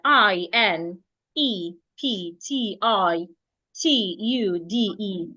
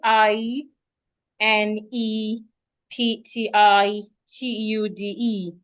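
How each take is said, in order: First: Each letter is said separately and evenly. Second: The letters are grouped into syllable chunks. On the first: "spell the words in each letter" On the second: "in syllables"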